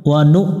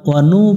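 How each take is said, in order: Both takes have the same delivery.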